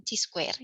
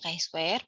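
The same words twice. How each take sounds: First: "chi-square" with CHI said like "chee"; mistaken reading of chi-square. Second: "chi-square" with CHI said like "kai"; correct reading of chi-square. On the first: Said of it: "bukan chi-, bukan chi-square ya". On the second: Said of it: "Ini dibacanya chi-square". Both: Shown as a demonstration.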